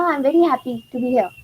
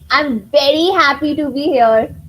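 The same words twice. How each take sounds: First: It is said flatly, without expression. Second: It is said cheerfully, with lively expression. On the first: The speaker calls it wrong. "If I just say it like this" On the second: The speaker calls it right. "I'm changing my facial expressions"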